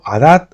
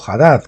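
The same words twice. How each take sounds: First: Hadad said with no H, starting on the A; silent H. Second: Hadad opened with a Spanish J sound; pronounced H. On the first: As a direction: drop the H in Hadad, open on the vowel. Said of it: "Si la H es muda". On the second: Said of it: "Si la pronunciamos". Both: Shown as a demonstration.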